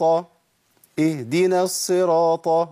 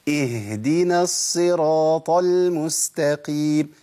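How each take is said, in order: First: The h sound is missing entirely. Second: The h is said clearly and firmly. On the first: The speaker calls it wrong. "انا كده ما طلعتش هاء" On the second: The speaker calls it right. "لازم امكن لمخرج الهاء"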